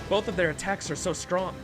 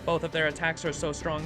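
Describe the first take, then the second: First: It is said in a natural human voice. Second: It is said in a put-on robotic voice.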